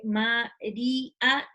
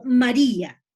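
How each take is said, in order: First: "María" drawn out very slowly, Ma-rí-a; slow syllabified. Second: "María" said louder as an example; emphatic example. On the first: Teacher slowly shows the hiatus in a word. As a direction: stretch out "María" so the í and the a split. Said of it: "tengo la I y la A". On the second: Teacher stresses an example word for students. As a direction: call out "María" firmly to show the stressed I. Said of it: "es decir". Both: Shown as a demonstration.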